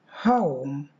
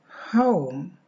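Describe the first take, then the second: No difference in how they are said.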